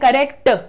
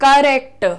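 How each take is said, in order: The two takes are said the same way.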